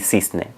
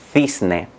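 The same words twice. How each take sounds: First: The c is said like English s. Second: The c is said like English th. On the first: This is how other Spanish-speaking countries say it. "se pronunciarían zapato y cisne" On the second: This is how central and northern Spain say it. "existe el sonido th"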